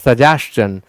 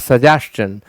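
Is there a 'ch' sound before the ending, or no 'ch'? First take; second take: ch; ch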